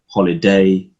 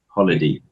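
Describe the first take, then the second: First: The last syllable is a full "day". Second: The last syllable is a reduced "dee". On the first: "I sometimes see people saying stuff like holiday" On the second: "it's not even day, it's like D"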